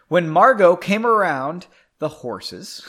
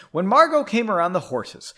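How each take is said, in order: First: Odd stress on Margot, oddly read; a stumbling misread of the line; read weird. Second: Said in the usual way. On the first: Shown as a demonstration. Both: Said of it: "I read that weird".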